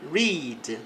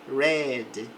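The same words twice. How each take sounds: First: The vowel is long, like 'reed'. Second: The vowel is short, like 'red'. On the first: The action happens in the present. "No presente, a pronúncia é read" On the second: The action happened in the past. "No passado, fala read"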